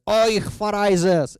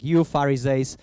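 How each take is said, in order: First: Slow, loud, high mock-German cry of Euch Pharisees; mock German accent, outraged priest; mock German outburst. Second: Said in the usual way. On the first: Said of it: "I don't speak German, but something like that". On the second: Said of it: "something like that, like".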